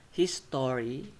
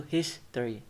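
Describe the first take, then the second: First: His story said slowly as separate words; full syllables. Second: History squeezed into two syllables, his-tree; reduced middle syllable. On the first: Teacher showing the unreduced form, his story in full. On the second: Teacher showing what his story turns to, history shortened. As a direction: drop the middle vowel of history. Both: Shown as a demonstration. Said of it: "turns to history".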